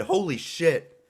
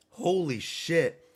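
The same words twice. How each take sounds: First: Surprised. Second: Drawn-out amazed exclamation; slow stunned repeat; slow awed holy shit. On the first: Reacting to knockout. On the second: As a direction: stretch it out slowly in disbelief. Repeated slowly in awe. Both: Real, not acted.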